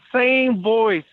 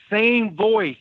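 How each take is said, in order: Both takes have the same delivery.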